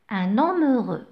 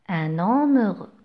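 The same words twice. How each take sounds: First: "Un homme heureux" with the N linked into homme; liaison demo. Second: "Un homme heureux" with the N linked into homme, ɛn‿ɔm; liaison demo again. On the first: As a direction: join un and homme in one flow. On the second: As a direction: say it once more, linking the N. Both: Shown as a demonstration. Teacher repeating the title with liaison. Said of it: "on fait la liaison".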